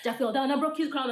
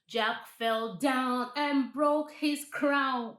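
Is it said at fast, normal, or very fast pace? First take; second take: very fast; normal. First: It is said very fast. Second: It is said at a normal pace.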